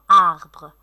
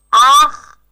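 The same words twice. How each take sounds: First: Said in the usual way. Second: "Arbre" split into two beats, loud first; syllable by syllable. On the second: Shown as a demonstration. Teacher scanning for pupils, "Arbre" in separate syllables. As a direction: chop "Arbre" into ar, pause, bre. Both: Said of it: "scandez le mot arbre".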